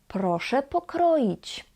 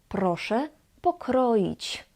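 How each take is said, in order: The two takes are said the same way.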